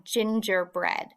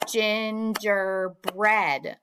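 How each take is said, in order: First: Said in the usual way. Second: "Gingerbread" very slowly in three beats; syllable by syllable. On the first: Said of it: "tell me the syllables in". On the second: Shown as a demonstration. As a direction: clap out "Gingerbread" as gin-ger-bread. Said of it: "tell me the syllables in gingerbread".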